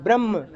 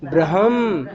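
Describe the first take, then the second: First: "ब्रह्म" as bramm, ह swallowed; mistaken म-first form. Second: "ब्रह्म" as bra-ham, low and falling; ह before म. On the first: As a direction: show "ब्रह्म" with a long म and no audible ह. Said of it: "ये गलत है". ("ब्रह्म" को ब्रम्म बोलें, ह दबाकर) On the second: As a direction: voice the ह fully, then hum the म in "ब्रह्म". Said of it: "जैसा लिखा है वैसा बोलना". ("ब्रह्म" को ब्र-हम बोलें, ह साफ़) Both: Shown as a demonstration.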